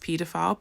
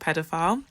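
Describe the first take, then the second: First: It is said with a British pronunciation. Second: It is said with an American pronunciation.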